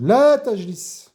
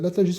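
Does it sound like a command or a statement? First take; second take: command; statement. First: It is said as a firm prohibiting command. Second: It is said as a plain informative statement. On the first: The listener is forbidden to sit down. "écoutez bien l'intonation, la tajlis... qui veut dire ne t'assois pas" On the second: It reports that someone does not sit down. "Contrairement au la qui est nafiya, de la négation"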